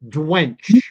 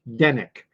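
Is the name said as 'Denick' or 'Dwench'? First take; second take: Dwench; Denick. First: The name sounds like 'Dwench', with one syllable. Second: The name sounds like 'Denick', with two syllables. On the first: The speaker calls it wrong. "it was spelled D U E N C H" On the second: The speaker calls it right. "Her last name was Denick"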